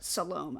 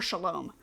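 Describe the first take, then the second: First: The name is said as 'Salome'. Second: The name is said as 'Shalom'. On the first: The speaker calls it right. "I think is how you say it" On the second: The speaker calls it wrong. "I always want to call her Shalom"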